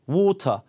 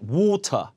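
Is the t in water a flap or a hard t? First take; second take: hard t; hard t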